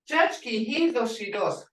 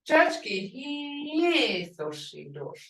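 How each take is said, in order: First: It is said in a plain, ordinary tone. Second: It is said in a marked, emphatic tone. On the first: She is pretty. "you can say your mother is pretty" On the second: She is strikingly beautiful. "that tone makes that pretty beautiful, gorgeous"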